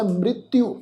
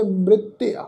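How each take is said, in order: First: ਮ੍ਰਿਤਯੂ ending in a long "yu". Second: ਮ੍ਰਿਤਯ said "mrit-tea", no "yu"; "tea" ending. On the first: Teacher citing a commentator's reading of ਮ੍ਰਿਤਯੂ, ending "yu". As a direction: say ਮ੍ਰਿਤਯੂ with "-tyu" at the end. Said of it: "ਇਸ ਸ਼ਬਦ ਦਾ ਜਿਹੜਾ ਉਚਾਰਨ ਆ". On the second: Teacher showing the congregation ਮ੍ਰਿਤਯ, ending "te-a". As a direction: end ਮ੍ਰਿਤਯ on an open "te-a". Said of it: "ਸ਼ਬਦ ਦਾ ਪਾਠ ਉਚਾਰਨ ਕਰਾਂਗੇ". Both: Shown as a demonstration.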